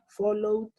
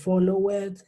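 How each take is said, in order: First: The ending is a single D sound. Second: The ending is an extra syllable like 'id'. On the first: The speaker calls it right. "Yo lo pronuncio con una sola D" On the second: The speaker calls it wrong. "Yo no puedo decir follow it"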